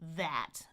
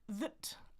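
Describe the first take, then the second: First: The vowel is full with a wide open jaw. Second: The vowel is reduced to a short schwa. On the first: "my tongue is really far forward and my jaw is very open" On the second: "I can reduce it though"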